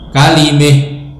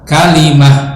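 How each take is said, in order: First: The vowel before final h leans toward e. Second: The vowel before final h is an open a. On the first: One reciter's reading with imalah when pausing. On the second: The common reading with fathah.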